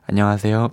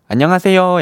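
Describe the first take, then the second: First: It has a flat Seoul standard melody. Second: It has a rising-falling Gyeongsang dialect melody.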